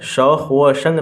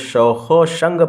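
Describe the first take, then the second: First: The joining word is a separate 'va'. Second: The joining word is a linked 'o'. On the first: The speaker calls it wrong. "नहीं पढ़ा जाएगा" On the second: The speaker calls it right. "बल्कि शौखो शंग पढ़ा जाएगा"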